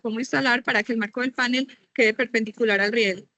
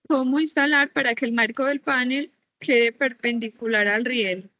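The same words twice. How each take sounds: First: The question is read at a fast pace. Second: The question is read at a slow pace. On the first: The speaker calls it wrong. "Fue muy rápido" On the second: The speaker calls it right. "te vuelvo a decir más despacio"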